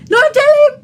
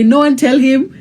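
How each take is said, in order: First: Very high squealed plea; high-pitched warning. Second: Said in the usual way. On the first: Real, not acted. Host guarding husband's birthday surprise, high squealed warning.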